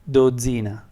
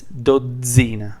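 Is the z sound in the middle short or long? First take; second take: short; long. First: The middle z sound is short and single. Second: The middle z sound is held long and doubled. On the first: The speaker calls it wrong. "If there was just one Z, then it would be" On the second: The speaker calls it right. "But it's"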